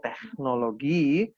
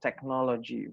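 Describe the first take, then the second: First: It is said with a German pronunciation. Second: It is said with an Indonesian pronunciation. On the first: This is how Germans say it. "Kalau orang Jerman bilangnya teknologi" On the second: This is how we say it here. "kita bilangnya teknologi"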